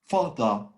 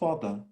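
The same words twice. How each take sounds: First: The final syllable ends in a hard, full vowel. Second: The final syllable ends in a soft, reduced vowel. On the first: The speaker calls it wrong. "pronounce too hard, uh, like British, that use the, the, the sound a at the end of" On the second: The speaker calls it right. "the sound is"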